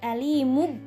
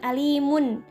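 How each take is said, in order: First: The word ends in a b sound. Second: The word ends in an n sound. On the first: "bukan alimub" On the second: "apalagi bukan alimun"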